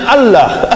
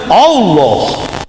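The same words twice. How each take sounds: First: The L is short and single, not doubled. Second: The L is held long and doubled. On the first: The speaker calls it wrong. "mereka tidak ada lam tasjid, makanya mereka sebut Allah secara la, Latin" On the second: The speaker calls it right. "dalam makhraj Hebrew and Hijaiyah Arabik dia kan menyebut Allah"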